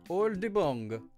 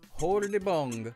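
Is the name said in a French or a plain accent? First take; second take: French; plain. First: The name is said in a French accent. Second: The name is said in a plain accent.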